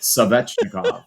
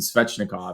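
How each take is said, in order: First: An extra syllable separates the S and V. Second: The S and V are said together.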